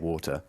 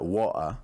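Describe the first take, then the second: First: It is said in a posher, standard accent. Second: It is said in a Cockney-style accent. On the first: "I always say water" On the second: "more uh either Cockney or other areas of the country"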